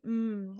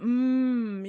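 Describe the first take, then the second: First: The hum is soft and gentle. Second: The hum is pushed and forced.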